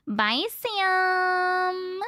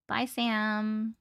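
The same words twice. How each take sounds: First: Higher, drawn-out sing-song bye; sing-song goodbye. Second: Said in the usual way. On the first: Real, not acted. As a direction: sing the goodbye, stretching Sam. Saying goodbye to a viewer.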